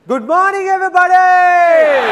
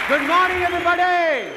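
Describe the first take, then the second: First: It is said with excitement and happiness. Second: It is said flatly, without excitement.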